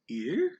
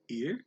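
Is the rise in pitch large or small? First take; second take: large; small. First: The pitch rises strongly with heavy emphasis. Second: The pitch rises only slightly with light emphasis.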